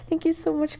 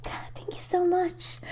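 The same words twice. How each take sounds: First: Said in the usual way. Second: Whispered thanks, slow; slow whispered thank you. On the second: Shown as a demonstration. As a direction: breathe the thanks out.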